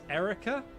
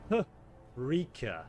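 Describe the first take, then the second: First: The name starts with a vowel, no H. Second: The name starts with an H sound. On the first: The speaker calls it wrong. "Is that pronunciation correct?" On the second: The speaker calls it right. "let me get this right"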